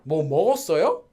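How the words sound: The stress is on the verb. It asks whether anything was eaten. "If you do not emphasize the word, but instead emphasize the verb"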